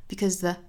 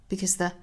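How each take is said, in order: The two takes are said the same way.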